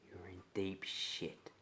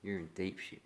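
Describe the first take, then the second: First: Slow, threatening whisper; menacing whisper. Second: Said in the usual way. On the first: Acted. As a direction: breathe it slowly as a warning. Threat to a trespasser.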